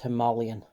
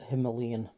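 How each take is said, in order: First: It is pronounced the way it is said in India. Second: It is pronounced the way it is said locally. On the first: The speaker calls it right. "in India, where they're built, it's Himalayan" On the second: The speaker calls it wrong. "over here, we kind of call it Himalayan"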